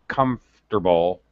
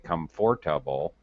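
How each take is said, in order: First: The middle syllable is dropped. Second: The middle syllable is fully pronounced. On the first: The speaker calls it right. "This is uh, a dropped syllable normally" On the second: The speaker calls it wrong. "We don't say"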